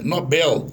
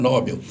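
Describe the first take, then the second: First: Nobel stressed on the last syllable; correct stress. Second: Nobel stressed on the first syllable; wrong stress. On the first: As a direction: say Nobel as no-BEL. (Nobel oxítono, acento em BEL) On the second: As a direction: say Nobel as NÓ-bel. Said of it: "O brasileiro fala Nobel". (Nobel com acento errado em NÓ) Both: Shown as a demonstration.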